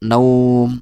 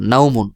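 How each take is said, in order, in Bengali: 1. এটি ব্যঞ্জনে থেমে যায়, স্বরধ্বনি একটু বেশি টানা হয়। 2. এটি পূর্ণ 'un' দিয়ে শেষ হয়। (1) "যদি ওয়াকফ করেন তাহলে এক আলিফ টেনে পড়তে হবে" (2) "যদি আপনি উচ্চারণ করেন তাহলে এভাবে পড়তে হবে"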